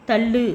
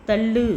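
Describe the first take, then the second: The two takes are said the same way.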